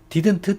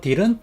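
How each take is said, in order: First: The word is said at a normal pace. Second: The word is said a little faster.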